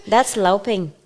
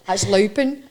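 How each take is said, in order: First: "louping" said as "lao-ping", full final g; learner's attempt at Scots. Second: "louping" with a Scots "loh-pin" sound; Scots phrase demonstrated. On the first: Learner copying the host's phrase, "louping" as "lao-ping". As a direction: try "louping" carefully with a foreign learner's vowel. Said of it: "I'll try to say it". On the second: Host repeats for the learner, "louping" in broad Scots. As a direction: model "louping" with a dropped g. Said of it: "So I would say". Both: Shown as a demonstration.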